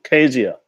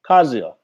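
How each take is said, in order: First: The first syllable sounds like 'kez'. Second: The first syllable sounds like 'kaz'. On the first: The speaker calls it right. "With the E, it can't be Kazia" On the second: The speaker calls it wrong. "No, it can't be Kaz"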